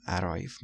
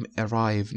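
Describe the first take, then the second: First: "arrive" starting with an open æ sound; wrong pronunciation. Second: "arrive" starting with a short e sound; correct pronunciation. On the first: Teacher warning students off the wrong vowel. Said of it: "نمیگیم". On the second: Teacher giving students the right first vowel. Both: Shown as a demonstration.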